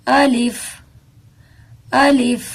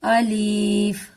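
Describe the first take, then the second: First: الف said quickly and crisply, no ی; quick alif. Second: الف stretched very slowly, with a ی after the لام; wrong drawn-out alif. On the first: Teacher shows the right quick الف. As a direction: clip الف short and quick. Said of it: "اس کو ہم جلدی سے پڑھیں گے". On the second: Teacher shows the wrong, stretched الف. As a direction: drag الف out slowly, adding a ی. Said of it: "اگر ہم اس کو". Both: Shown as a demonstration.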